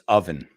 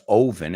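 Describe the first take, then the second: First: The first vowel is not said as 'oh'. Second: The first vowel is said as 'oh'. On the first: The speaker calls it right. "it's oven" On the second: The speaker calls it wrong. "Si tiene una O, se pronuncia como O. No siempre en inglés ... no es oven"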